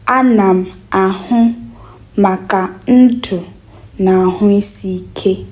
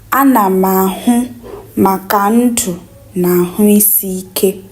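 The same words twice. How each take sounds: The two takes are said the same way.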